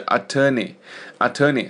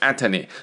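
First: The stress is on the second syllable. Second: The stress is on the first syllable. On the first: The speaker calls it right. "重音在T-O-R 这里" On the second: The speaker calls it wrong. "不是在A 上面啊，不要念成attorney"

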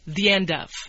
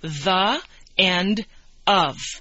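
First: A small y sound links the first two words. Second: Each word is said separately and distinctly. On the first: "But we say the end of" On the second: "That's what we would read"

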